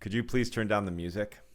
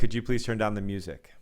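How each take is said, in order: First: The request sounds tense and braced. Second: The request sounds relaxed and open. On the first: "And now the second one" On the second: "That's one"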